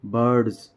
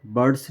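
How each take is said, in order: First: बर्ड्स ending on a voiced buzzing z, louder; ज़ की ध्वनि के साथ बर्ड्स; z sound ending. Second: बर्ड्स ending on a hissing s, the wrong way; गलत स वाली ध्वनि में बर्ड्स. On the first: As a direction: correct it: बर्ड्स with a clear z. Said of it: "जेड की sound आएगी". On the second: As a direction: say बर्ड्स with a plain s. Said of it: "बर्ड्स नहीं बोलेंगे". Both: Shown as a demonstration.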